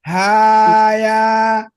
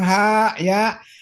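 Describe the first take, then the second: First: The two syllables are joined without a break. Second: There is a break between the two syllables. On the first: The speaker calls it right. "Kalau disambung haya" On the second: The speaker calls it wrong.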